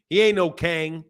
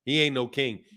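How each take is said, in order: First: KANG with a drawn "ang" vowel. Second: Said in the usual way. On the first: Shown as a demonstration. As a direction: twang king into "Kang". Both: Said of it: "what he means is Kang".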